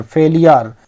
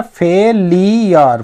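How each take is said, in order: First: Said in the usual way. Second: फेलियर broken into fe, lee, yar; फेलियर stretched out as fe-lee-yar; syllable-by-syllable pronunciation. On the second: Shown as a demonstration. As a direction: sound out फेलियर in three separate syllables. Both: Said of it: "इसका जो pronunciation है".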